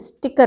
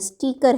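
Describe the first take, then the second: First: The first vowel is short, like 'stick'. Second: The first vowel is long, like 'steek'. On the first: The speaker calls it right. "बड़ी मात्रा नहीं, short लगानी है" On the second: The speaker calls it wrong. "बहुत लोगों को मैंने स्टीकर कहते सुना है"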